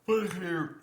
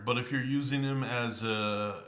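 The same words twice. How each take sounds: First: Words stretched by a yawn. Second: Said in the usual way. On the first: Real, not acted. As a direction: talk through a real yawn. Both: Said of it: "I'm yawning here".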